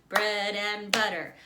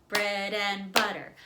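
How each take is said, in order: Both takes have the same delivery.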